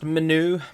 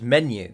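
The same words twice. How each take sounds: First: It sounds like 'manure' with a lisp. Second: It sounds like the ordinary word 'menu'. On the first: "like manure, but with a speech impediment" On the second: "just menu"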